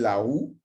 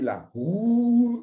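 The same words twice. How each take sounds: First: The word is said plainly at normal pace. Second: The word is drawn out and heavily articulated. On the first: "au lieu de dire" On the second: "ils insistaient un peu"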